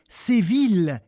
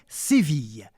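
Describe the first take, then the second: First: Séville is said with the old pronunciation. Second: Séville is said with the modern pronunciation. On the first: This is how it was said long ago. "qui correspond probablement à la façon dont on le disait au dix-huitième siècle" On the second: This is how it is said today. "nous avons choisi la manière moderne"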